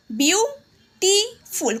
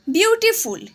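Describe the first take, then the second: First: বিউটিফুল split slowly into beau, ti, ful; slow বিউটিফুল with a pause after each syllable. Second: Said in the usual way. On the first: Shown as a demonstration. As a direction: sound out বিউটিফুল in three separate syllables. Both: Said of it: "কটা syllable আছে".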